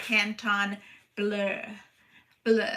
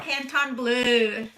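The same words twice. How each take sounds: First: "Canton ... bleu", slow and lower, pausing before each "bleu"; careful trial pronunciation. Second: Said in the usual way. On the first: Shown as a demonstration. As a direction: try out "bleu" as a French word, set apart and softer. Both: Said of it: "you tell me how to say it".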